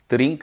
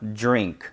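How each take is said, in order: First: It begins with a plain d sound. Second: It begins with a j-like affricate sound. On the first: The speaker calls it wrong. "아니고요" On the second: The speaker calls it right. "들이 아니고요. 주, 주로 발음이 변해"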